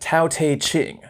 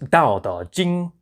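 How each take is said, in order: First: The title begins with a T sound. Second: The title begins with a D sound. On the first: The speaker calls it wrong. "the famous book looks like Tao Te Ching" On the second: The speaker calls it right. "but really it's pronounced Dao Da Jing"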